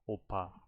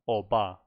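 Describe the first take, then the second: First: The middle consonant sounds like a P. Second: The middle consonant sounds like a B. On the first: The speaker calls it right. "She's saying opa" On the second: The speaker calls it wrong. "she's not saying oba"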